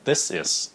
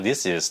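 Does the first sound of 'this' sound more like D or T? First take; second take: T; D. First: The first sound of 'this' sounds like a T. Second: The first sound of 'this' sounds like a D. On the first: The speaker calls it right. "nó là âm tờ" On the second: The speaker calls it wrong. "Thật sự nó không phải âm D"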